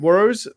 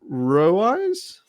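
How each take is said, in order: First: The name is said quickly and run together. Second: The name is said slowly and drawn out.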